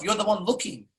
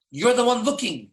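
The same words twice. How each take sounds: First: Said in the usual way. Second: "You're" hit first, higher and firmer; stress on You're. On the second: Shown as a demonstration. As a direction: lean on "You're", not on "one".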